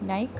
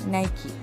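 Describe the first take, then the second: First: The word ends on a 'k' consonant. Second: The word ends on an 'ee' vowel. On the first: The speaker calls it wrong. "നൈക്ക് ആണോ" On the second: The speaker calls it right. "Correct pronunciation"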